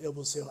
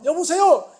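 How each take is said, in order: First: It is said in a calm, dignified, low voice. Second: It is said in a bright, lively, high voice. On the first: Listeners think the speaker is ill. "내가 조금만 점잖게" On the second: The speaker sounds like his usual self. "나는 맨날 말을 해도 아 목사님 안녕하세요 여보세요 이렇게 말하는 것이"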